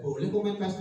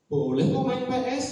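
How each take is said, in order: First: Said in the usual way. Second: "kok" lifted high and loud, reassuring; teacher to late pupil, lifting "kok" high and loud; stress on kok. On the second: Retold or imitated. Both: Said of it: "Begitu jawaban saya".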